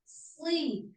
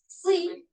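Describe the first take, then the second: First: The syllable sounds heavy and full. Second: The syllable sounds light despite rounded lips. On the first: The speaker calls it right. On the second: The speaker calls it wrong. "hanya bibirnya saja, tapi suaranya tidak tebal"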